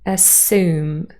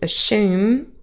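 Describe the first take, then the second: First: The s is followed directly by the vowel. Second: The s and y merge into an sh sound. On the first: "general American pronunciation with yacht dropping" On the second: "another variety for British English with yacht coalescence"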